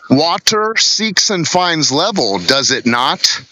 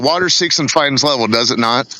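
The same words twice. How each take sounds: First: The sentence is said slowly and deliberately. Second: The sentence is said at a normal pace.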